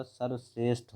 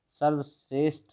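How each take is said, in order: First: सर्वश्रेष्ठ ending in aspirated Th; correct form. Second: सर्वश्रेष्ठ ending in unaspirated T; wrong form. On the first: Teacher corrects the word for students, correct form. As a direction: say सर्वश्रेष्ठ with a puff on the final Th. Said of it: "ठा होगा". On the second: Teacher rejects the spelling for students, wrong form. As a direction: say सर्वश्रेष्ठ with a plain hard T at the end. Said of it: "सर्वश्रेष्ठ नहीं होता". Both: Shown as a demonstration.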